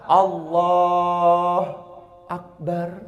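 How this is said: A short pause separates the two words. The speaker calls it wrong. "nggak boleh terjeda kayak ada apa kayak ada sakta"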